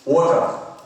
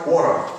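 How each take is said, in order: First: The word is said with a British accent. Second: The word is said with an American accent. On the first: "You study more or less British way" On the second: "Nhưng American nó có nói gì đâu? Nói water"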